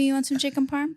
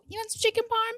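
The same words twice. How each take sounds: First: It is said in a plain voice without affect. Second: It is said in an exaggerated, girlish put-on voice. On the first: The speaker calls it right. "let me do the Jenny voice without affect" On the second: The speaker calls it wrong. "That's my imitation"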